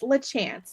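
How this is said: The name is said with a Southern English pronunciation. "if it's just Southern English here in North Carolina"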